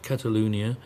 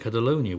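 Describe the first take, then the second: First: The name is pronounced the local way. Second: The name is pronounced the usual English way. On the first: "the way I'm supposed to" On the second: "We would normally say Catalonia"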